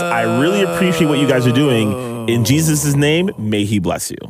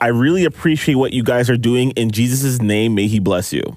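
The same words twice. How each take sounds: First: There is a clear break after 'doing'. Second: 'Doing' runs straight into 'in Jesus' name'.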